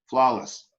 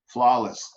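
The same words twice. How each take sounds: The two takes are said the same way.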